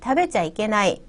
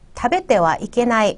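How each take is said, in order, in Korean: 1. 'tabecha'로 줄여서 말해요. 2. 'tabete wa'로 풀어서 말해요. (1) "말할 때는 다베자 이케나이 이렇게 얘기하는 경우가 많다" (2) "먹으면 안 된다 라는 표현"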